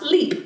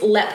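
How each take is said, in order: First: The word sounds just like its spelling. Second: The word sounds different from its spelling. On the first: The speaker calls it wrong. "not Leap. Though it is spelled like Leap" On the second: The speaker calls it right. "it's Leap Castle"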